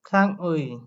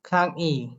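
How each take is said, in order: First: The final vowel is said as 'ui'. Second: The final vowel is said as 'i'.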